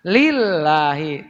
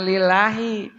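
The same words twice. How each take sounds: First: Lillahi with the lam pressed and held; doubled lam. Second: Lillahi with a short single l, no doubling; wrong single lam. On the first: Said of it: "Tekan, lillahi". (lam ditekan pada "lillahi") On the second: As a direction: say lillahi lightly, lam not held. (lam tidak ditekan pada "lillahi") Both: Shown as a demonstration.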